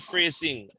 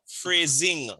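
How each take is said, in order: First: The middle consonant is an s sound. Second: The middle consonant is a z sound. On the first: The speaker calls it wrong. "Not phrasing" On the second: The speaker calls it right. "So the S has a Z sound"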